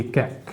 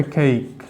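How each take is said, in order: First: কেক said as a flat short "kek"; কেক with a plain e, no glide; softly saying কেক the local way, "kek"; common wrong way. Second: কেক said as "keik" with a glide; কেক with the vowel sliding e to i, "keik"; teacher modelling কেক as English "cake", "keik"; correct English way. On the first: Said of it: "আমরা কিন্তু এটা কেক বলি". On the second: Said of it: "তাহলে উচ্চারণ হবে কেক". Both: Shown as a demonstration.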